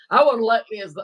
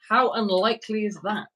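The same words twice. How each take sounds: First: It is said in a put-on imitating voice. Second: It is said in the speaker's normal voice.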